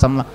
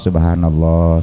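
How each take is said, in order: First: The phrase is rushed and squeezed into two syllables. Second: Every syllable of the phrase is said fully.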